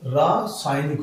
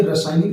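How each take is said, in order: First: रासायनिक slow, with a held "raa"; correct long vowel. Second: रासायनिक quick, with short "ra"; wrong short vowel. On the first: Teacher giving the right form, रासायनिक with long "raa". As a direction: say रासायनिक as "raaa, saay-nik". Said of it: "वो रासायनिक होता है". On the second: Teacher reading the misspelling, रासायनिक with short "ra". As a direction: say रासायनिक as "ra-saay-nik". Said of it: "ये रासायनिक लिखा हुआ है". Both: Shown as a demonstration.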